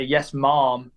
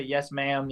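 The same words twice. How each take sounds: First: "mom" as the English form of ma'am, rounder vowel. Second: "ma'am" with a flat American a; Southern "ma'am". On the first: Showing how an English kid would answer politely, English "mom". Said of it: "if you're English and you say". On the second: Showing how Southerners politely answer, American "ma'am". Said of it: "in the South, a lot of people say". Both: Shown as a demonstration.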